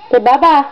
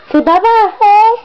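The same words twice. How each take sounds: First: Said in the usual way. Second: "bye-bye" said much higher, lilting; high coaxing sing-song. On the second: Shown as a demonstration. Mom coaxing her baby to say bye, high sing-song. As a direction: lift "bye-bye" way up to coax the baby.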